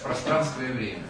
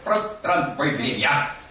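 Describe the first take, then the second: First: It is said with a native Russian accent. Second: It is said with a heavy Spanish accent. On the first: The speaker calls it right. "оказывается" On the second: The speaker calls it wrong. "Испаноязычные студенты говорили"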